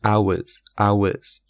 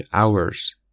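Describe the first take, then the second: First: "hours" with no r sound; British pronunciation. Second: "hours" with the r sounded; American pronunciation. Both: Shown as a demonstration.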